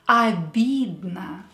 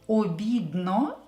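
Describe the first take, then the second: First: The first vowel is said as 'a'. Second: The first vowel is said as a full 'o'. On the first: The speaker calls it right. "we have to pronounce them as A" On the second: The speaker calls it wrong. "So don't pronounce them as O. Обидно is incorrect"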